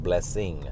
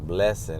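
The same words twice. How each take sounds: First: It is said the usual way, not rhyming. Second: It is said to rhyme with lesson. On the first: It is the usual way of saying it. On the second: It is the speaker's own way of saying it.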